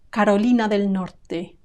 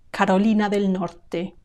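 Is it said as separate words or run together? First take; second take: run together; run together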